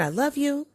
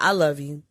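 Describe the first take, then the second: First: Said with kindness and tenderness; a gentle, loving "I love you"; tender. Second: "I love you" turned into a doubtful question; questioning tune. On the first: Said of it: "when said with kindness and tenderness". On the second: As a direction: ask "I love you?" with a rising, unsure tune. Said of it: "The question mark changes the whole meaning". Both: Shown as a demonstration.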